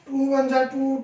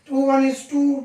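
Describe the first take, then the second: First: The word 'is' is slurred into 'ja'. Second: The word 'is' is pronounced fully and clearly. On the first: The speaker calls it wrong. "ये गलत है" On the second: The speaker calls it right. "ये सही pronunciation ये है उसका"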